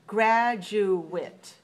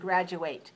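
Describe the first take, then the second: First: The last syllable is a weak, short 'it'. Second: The last syllable has a full 'ate' vowel. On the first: It is used as a noun. "So as a noun, we pronounce it at the end" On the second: It is used as a verb. "we pronounce it with A, A, A sound"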